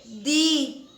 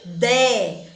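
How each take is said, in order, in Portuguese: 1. A palavra é dita com a vogal 'i' reduzida. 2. A palavra é dita com a vogal 'e' simples. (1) "mas a gente lê de" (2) "se escreve de"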